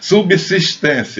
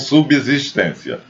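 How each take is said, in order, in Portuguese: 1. O segundo s soa como s. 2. O segundo s soa como z. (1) "Subsistência e não subsistência" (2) "e não subsistência"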